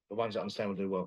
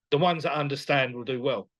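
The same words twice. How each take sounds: First: Quiet repeat. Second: Said in the usual way. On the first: Real, not acted. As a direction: lower and softer, said again to itself.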